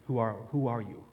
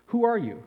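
First: Lower, reflective restating of the caterpillar's question; a hint of the caterpillar, said low and thoughtful; echoing the caterpillar. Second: High, loud demand from the caterpillar; imperious storybook caterpillar; caterpillar's challenge. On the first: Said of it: "How do we answer this question?". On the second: Acted. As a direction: fire the question at Alice from above. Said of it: "said the caterpillar".

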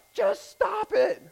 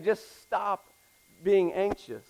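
First: High, drawn-out comic yell; screamed-out order. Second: Said in the usual way. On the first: Acted. Counselor to client in comedy clip, screamed out. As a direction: yell it as an exasperated counselor, far higher and slower. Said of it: "he screams out". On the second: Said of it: "He's not just saying".

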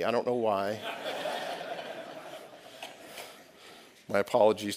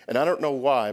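First: Said through a real chuckle; amused, a little sheepish; laughing. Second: Said in the usual way. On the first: Real, not acted. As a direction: laugh at yourself softly as you say it. Preacher laughs at himself.

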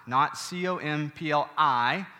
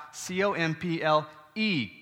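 First: "C O M P L I" spelled letter by letter, slowly, ending on I; slow letter-by-letter spelling of "C O M P L I", stressing the final I; spelling out the wrong word. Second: "C O M P L E" spelled letter by letter, ending on E; spelling out the right word. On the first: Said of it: "complement not with an I". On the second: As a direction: spell "C O M P L E" letter by letter, landing on the final E. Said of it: "I'm talking about C O M P L E". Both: Shown as a demonstration.

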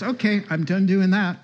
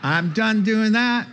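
First: Higher, louder voicing of her giving in; retold concession. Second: High, loud, laughing through the words; laughing repeat. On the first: Visitor gives in after reading verse, voiced higher and louder. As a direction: act out her cheerful surrender. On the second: Retold or imitated. Pastor repeats the visitor's surrender, high and loud, laughing through it. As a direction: laugh while you retell it.

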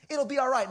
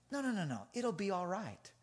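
First: Higher, firmer retold reassurance; insistent reassurance. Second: Soft, soothing retold reassurance; calm a worried kid gently; reassuring. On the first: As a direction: insist to a worried kid that all is fine. Repeats the reassurance more forcefully.

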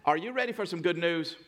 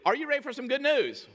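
First: Said in the usual way. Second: Much higher, excited call to the crowd; rousing call. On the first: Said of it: "teach you a little bit better". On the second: Shown as a demonstration. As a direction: rouse the congregation for an answer, pitched way up. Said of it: "you gotta really".

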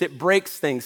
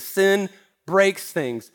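First: Said in the usual way. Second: Sin said slowly and heavily, then breaks things; stress on Sin, slow. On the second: Shown as a demonstration. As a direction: lean hard on Sin and take your time.

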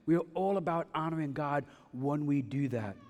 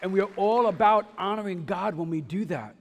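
First: Said in the usual way. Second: Raised, louder preaching voice; higher and louder, driving the point; emphatic proclamation. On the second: Real, not acted. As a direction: proclaim it to the whole congregation. Preacher proclaims, then repeats it quietly.

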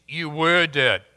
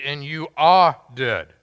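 First: "were" carries the weight, short fall after; the right reading, hit "were"; stress on WERE. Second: "are" leaned on a little louder, falling after; the wrong reading, hit "are"; stress on ARE. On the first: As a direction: lean on "were" in "you were dead". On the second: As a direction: press the word "are" in "you are dead". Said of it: "Doesn't read". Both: Shown as a demonstration.

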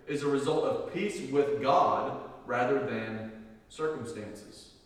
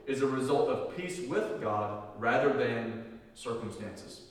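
Both takes have the same delivery.

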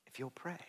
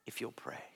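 First: A soft, spoken echo of "If you'll pray" with a lift on "pray"; soft voiced repeat. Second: Whispered plea. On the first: Preacher softly repeating the call to pray, voiced this time. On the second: Acted. Preacher whispering the call to pray to his church. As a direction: whisper "if you'll pray" with no voice at all.

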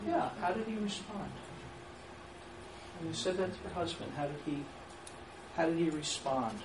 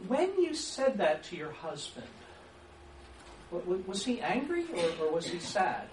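First: Calm, open question; open question demo. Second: Leading either-or question; menu question demo. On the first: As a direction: ask it simply and leave room to answer. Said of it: "What would be a better way to say that?". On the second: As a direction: ask it as a closed menu of two answers. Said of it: "You see what I've just done?". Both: Shown as a demonstration.

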